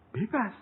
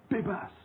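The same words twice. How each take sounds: First: High, rising disbelieving echo; incredulous repeat of the word; surprised question. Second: Said in the usual way. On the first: Retold or imitated. Disbelief at being freed.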